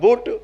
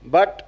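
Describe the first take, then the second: First: The vowel sounds like the one in foot. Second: The vowel sounds like the one in cup. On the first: The speaker calls it wrong. "अब हो जाएगा बुट" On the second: The speaker calls it right. "तो बोले B यू T बट"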